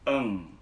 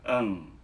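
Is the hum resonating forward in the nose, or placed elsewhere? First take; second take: nasal; nasal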